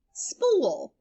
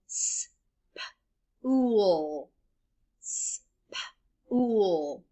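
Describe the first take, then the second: First: Said in the usual way. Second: "s-p-ool" split into separate sounds; segmented sounds. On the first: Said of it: "What's that word?". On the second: Shown as a demonstration. Teacher sounding out a word for children to blend. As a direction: stretch "s-p-ool" apart sound by sound. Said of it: "you blend the sound that matches".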